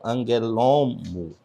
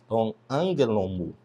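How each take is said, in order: First: The stress falls on the added later accent. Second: The stress falls on the first syllable only. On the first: The speaker calls it wrong. "e não angelomo" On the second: The speaker calls it right. "a pronúncia como se não tivesse esse acento aqui"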